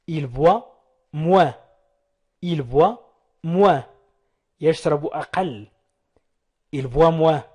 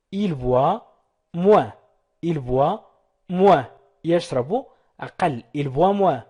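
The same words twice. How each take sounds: The two takes are said the same way.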